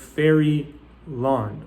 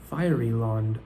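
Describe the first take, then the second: First: The first vowel sounds like 'air'. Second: The first vowel sounds like 'eye'. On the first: "that's how we read it" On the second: "now that word fairyland becomes fiery land"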